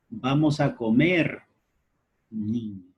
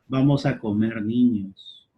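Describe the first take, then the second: First: It is said with a brief pause before the last word. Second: It is said with no pause before the last word. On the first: The children are being invited to go and eat. "la coma, que ha dado una breve pausa al discurso" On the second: The children are going to be eaten. "En el primer enunciado notábamos la expresión de canibalismo"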